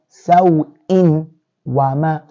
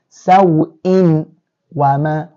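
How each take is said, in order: First: The nun sound is clearly heard before w. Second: The nun sound is clearly heard before w.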